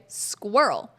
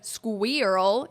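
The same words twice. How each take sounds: First: The opening consonants are blended smoothly together. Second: The opening consonants are not blended together. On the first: The speaker calls it right. "think of S K W, like sk, w, together" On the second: The speaker calls it wrong. "instead of squirrel"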